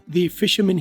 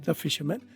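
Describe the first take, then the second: First: The word 'the' is said with a long 'thee'. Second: The word 'the' is said with a short 'thuh'. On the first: The speaker adds stress and weight to the words. "लेकिन उसने दी बोला" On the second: This is the ordinary neutral form. "वैसे fisherman के साथ दा लगना चाहिए"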